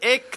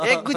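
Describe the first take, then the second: First: The word ends with a voiceless k sound. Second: The word ends with a voiced g sound. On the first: The speaker calls it right. "エクですね" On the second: The speaker calls it wrong. "エッグじゃなくて"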